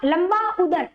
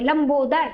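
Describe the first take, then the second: First: The two parts are said separately, unjoined. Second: The two parts are fused into one word. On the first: The speaker calls it wrong. "ऐसे नहीं बोलोगे" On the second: The speaker calls it right. "Direct ऐसा बोलो"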